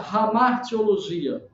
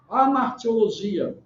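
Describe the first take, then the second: First: The word begins with an audible h sound. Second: The word begins directly with a vowel sound.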